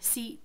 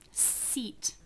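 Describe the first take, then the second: First: The final t is made as a glottal stop. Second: The final t is released with a puff of air. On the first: "Now the next one is a glottal" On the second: "Seat has the aspiration at the end"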